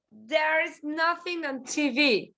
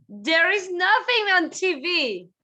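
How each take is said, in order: First: Said in the usual way. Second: "nothing" hit high; stress on nothing. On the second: Shown as a demonstration. Teacher models the negative sentence, stressing "nothing". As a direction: punch "nothing" up.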